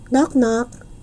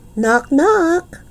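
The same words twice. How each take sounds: First: It is said at normal, softer volume. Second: It is said a little bit louder.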